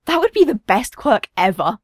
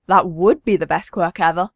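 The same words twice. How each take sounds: First: Lightly voiced child's enthusiasm; mildly excited, youthful declaration; excited boy. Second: Agreeing, with emphasis on "would"; lower-key adult echo, leaning on "would"; stress on WOULD. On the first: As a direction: declare it with a kid's eager delight. Excited boy declares his dream. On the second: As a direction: lean on "would" in amused agreement. Father agrees, echoing the boy. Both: A narrator's reading.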